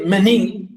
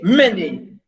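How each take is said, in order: First: The stress is on the second syllable. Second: The stress is on the first syllable. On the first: The speaker calls it wrong. "We don't say many" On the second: The speaker calls it right. "And we say many"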